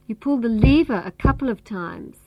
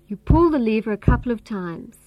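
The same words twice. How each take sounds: First: The word lever carries the main stress. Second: The word pull carries the main stress. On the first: It is the lever, not some other control. "This means you don't pull the cord or the switch. You pull the lever" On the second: The action is pulling, not pushing. "This means you don't push the lever, you pull it"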